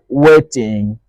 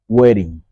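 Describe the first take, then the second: First: The double T is a clear, crisp T sound. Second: The double T is a soft, quick flap. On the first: The speaker calls it wrong. "We don't say waiting" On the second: The speaker calls it right. "in American English, that T changes. ... we say waiting"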